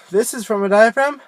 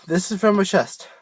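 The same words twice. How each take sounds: First: Supported voice from the diaphragm. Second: Chest voice, pushed from the chest. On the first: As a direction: speak with air from the belly. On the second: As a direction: speak it from the chest instead. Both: Shown as a demonstration.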